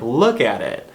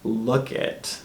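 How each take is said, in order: First: All three words are said as three syllables. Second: The middle word is dropped into two syllables. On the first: "think about it in terms of you saying like" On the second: "So it's look it"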